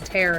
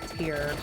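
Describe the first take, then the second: First: The vowel rhymes with air. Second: The vowel rhymes with ear. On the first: It means to rip something. The speaker calls it right. "Like, a whip would tear through something" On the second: It means a drop from the eye. The speaker calls it wrong. "not tear"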